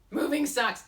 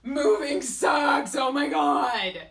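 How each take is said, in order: First: Higher, louder, but quicker than the wail; loud complaint. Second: Drawn-out, much louder complaining wail; whiny shout. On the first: Vlogger repeats her moving complaint, louder. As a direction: blurt the complaint again. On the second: Vlogger wails to viewers about her move, slow loud whine. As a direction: wail it slowly like a fed-up mover. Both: Acted. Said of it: "What is my attitude about my move?".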